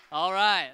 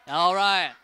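No difference in how they are said.

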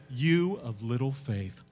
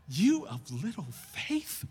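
First: Said in the usual way. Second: Slow, questioning repeat with rising end; incredulous echo. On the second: Retold or imitated. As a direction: repeat it as if unable to believe it. Repeats the quote in disbelief.

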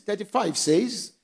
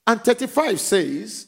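First: Said in the usual way. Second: Slow, stressing thirty-five; preacher calling out the verse number; emphatic verse call. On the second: Shown as a demonstration.

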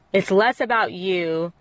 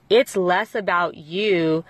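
Both takes have the same delivery.

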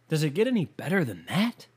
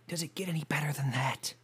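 First: Said in the usual way. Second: Whisper. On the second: Shown as a demonstration. Repeated line, whispered.

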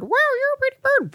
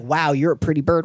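First: Very high squeaky parrot voice; high-pitched bird impression; parrot mimicry. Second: Said in the usual way. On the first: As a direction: echo it back like a pet bird.

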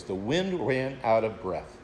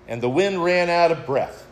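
First: Softer, lower, lingering on wind; preacher repeating a favourite phrase to the congregation, softly savored; savoring the phrase. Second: Said in the usual way. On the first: Shown as a demonstration. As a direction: let "wind" sink quietly, relishing the phrase. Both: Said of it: "I love that phrase".

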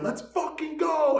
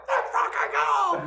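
First: Loud, high, drawn-out yell; screaming cheer. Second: Very high, loud, squealed cheer; Carl. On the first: Watching hockey in the kitchen, screaming drawn-out cheer. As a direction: scream it like a fired-up fan. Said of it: "So I'm screaming". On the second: Carl echoes the hockey cheer, very high squealing yell. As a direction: echo the yell in an exaggerated squeal. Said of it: "And Carl's like". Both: Retold or imitated.

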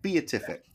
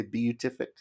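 First: BEATIFIC as bee-uh-TIF-ik; adopted pronunciation. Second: BEATIFIC tried as bee-yoo-TIF-ik; checking pronunciation. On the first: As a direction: say BEATIFIC with bee-uh split in two. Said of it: "let's go with that". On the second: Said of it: "what did you say?". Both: Shown as a demonstration.

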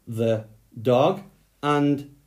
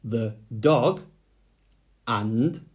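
The two takes are said the same way.

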